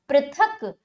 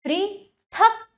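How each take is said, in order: First: Said in the usual way. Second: पृथक slowly as पृ... थक, starting higher; broken into syllables. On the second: Shown as a demonstration. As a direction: split पृथक after a long पृ. (पृथक को तोड़कर: पृ... थक) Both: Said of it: "तोड़कर पहले".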